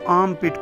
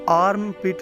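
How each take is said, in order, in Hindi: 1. इस शब्द में R की ध्वनि साइलेंट है। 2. इस शब्द में R की ध्वनि बोली जाती है। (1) "इसको आर्म पिट पढ़ना है, यानी कि आर इसमें साइलेंट है" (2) "आपने इसको आर्म पिट नहीं पढ़ना"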